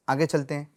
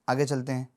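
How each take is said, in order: Both takes have the same delivery.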